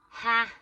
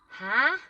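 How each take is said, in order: First: It sounds dismissive, flatly rejecting the idea. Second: It sounds puzzled, like not understanding something. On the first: The listener rejects that it will happen. "like no, that that isn't happening" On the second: The listener did not understand what was said. "I don't understand"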